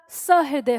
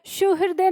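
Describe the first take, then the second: First: सहृदय said slowly with a plain short a, sa-hridaya, no u; correct spelling, slowly. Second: सुहृदय said with a u sound, su-hridaya; teacher sounds out the wrong form सुहृदय with su at the start; wrong spelling said. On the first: Teacher correcting students: slow सहृदय with short sa. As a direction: give the right form सहृदय slowly, sa not su. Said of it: "सहृदय होता है". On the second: Teacher showing students the misspelled सुहृदय with su. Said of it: "सुहृदय नहीं होता". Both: Shown as a demonstration.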